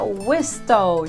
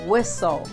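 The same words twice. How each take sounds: First: The T sound is pronounced. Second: The T sound is silent. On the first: The speaker calls it wrong. "Não diga whistle" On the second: The speaker calls it right. "diga whistle"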